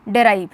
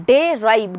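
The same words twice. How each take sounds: First: Said in the usual way. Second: "डेराइव" split into two beats, डे and राइव; syllable by syllable. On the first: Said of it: "मैं अगर डेराइव पढ़ रही हूँ". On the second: Shown as a demonstration. Teacher counting syllables for students, "डेराइव" broken in two. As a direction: sound out "डेराइव" as डे, then राइव. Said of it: "इसमें दो syllable हैं".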